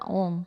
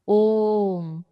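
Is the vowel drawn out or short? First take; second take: short; drawn out. First: The vowel is held for a normal length. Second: The vowel is held out very long. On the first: "ये हो गया ओम" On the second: "लेकिन अब मुझे बोलना है ओम"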